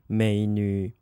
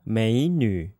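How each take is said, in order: First: 美女 with both syllables low, third tone each; unchanged third tones. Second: 美女 with 美 rising as second tone, 女 falling low; third-tone change. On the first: Teacher shows learners the form not used, unchanged third tones. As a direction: keep 美 low, no rise before 女. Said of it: "instead of saying 美女". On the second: Teacher shows learners what we say instead, changed tone. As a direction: lift 美 upward, then sink low on 女. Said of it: "change in the first third tone into a second tone". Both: Shown as a demonstration.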